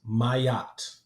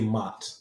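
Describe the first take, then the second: First: The name is said as two syllables. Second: The name is said as one short syllable. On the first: The speaker calls it right. "another pronunciation that is better" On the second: The speaker calls it wrong. "my mispronunciation"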